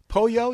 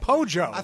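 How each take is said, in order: First: It is said with a standard Spanish pronunciation. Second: It is said with an Argentinian Spanish pronunciation. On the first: "Instead of saying pollo" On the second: "Argentinian Spanish"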